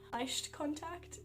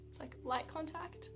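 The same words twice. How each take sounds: First: Slow German "Leicht" demo. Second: Said in the usual way. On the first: Shown as a demonstration. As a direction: stretch out German "Leicht" before "contact".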